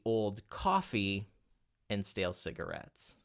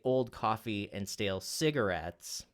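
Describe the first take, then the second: First: The word coffee is stressed. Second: The word cigarettes is stressed. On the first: It is coffee and not something else. "what if we accent then the word coffee?" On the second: The focus is on the idea of the cigarette. "if you accent the cigarettes word"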